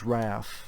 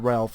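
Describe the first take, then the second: First: The name is said without an L sound. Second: The name is said with an L sound. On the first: The speaker calls it right. "it's Raph" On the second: The speaker calls it wrong. "some people say it's Ralph, but it's not Ralph"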